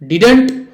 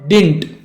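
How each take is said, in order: First: One contracted word with two syllables. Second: One clipped word with a single syllable. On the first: "डिडेंट कहो तो भी" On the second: "या सिर्फ डिंट कहो तो भी"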